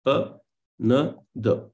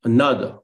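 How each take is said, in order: First: "Another" very slowly, broken into three beats; teacher's slow demo of the rhythm in "Another"; syllable by syllable. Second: Said in the usual way. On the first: Shown as a demonstration. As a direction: separate each syllable of "Another", stressing the middle. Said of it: "you have unstressed, followed by stress". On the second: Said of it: "and then unstressed".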